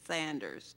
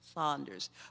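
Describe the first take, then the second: First: The first vowel sounds like in 'sand'. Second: The first vowel sounds like in 'sawn'. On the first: The speaker calls it wrong. "people would say Sanders" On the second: The speaker calls it right. "No, Saunders"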